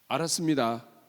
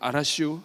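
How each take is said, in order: First: It is said in standard Korean. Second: It is said in Chungcheong dialect.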